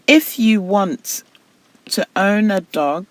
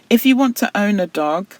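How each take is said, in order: First: It is read at a slow pace. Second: It is read at a fast pace. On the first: The speaker calls it right. "you see how slow that pace is" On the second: The speaker calls it wrong. "which is quite fast and wouldn't enable you to pick up on mistakes"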